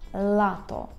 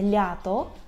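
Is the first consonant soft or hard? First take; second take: hard; soft. First: The first consonant is a hard, clear 'l'. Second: The first consonant is soft, like 'ly'. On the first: The speaker calls it right. "це «лато»" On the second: The speaker calls it wrong. "це не «лято»"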